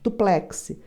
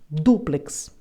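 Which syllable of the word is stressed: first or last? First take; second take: last; first. First: The stress is on the last syllable. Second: The stress is on the first syllable. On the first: "Duplex é uma palavra oxítona. A última sílaba é a mais forte" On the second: "é uma palavra proparoxítona terminada em X, por isso é que recebe acento"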